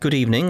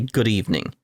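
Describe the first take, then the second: First: The greeting sounds plain and sincere. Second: The greeting sounds mocking and sarcastic. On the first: The greeting is meant politely. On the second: The greeting is meant as a jab.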